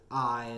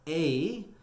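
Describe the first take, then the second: First: It is one syllable rhyming with tie. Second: It is one syllable rhyming with play. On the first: "as in the, you know, word tie" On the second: "as in, you know, the word play"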